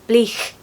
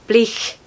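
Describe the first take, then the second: First: It ends with a breathy, fricative ch sound. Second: It ends with a breathy, fricative ch sound.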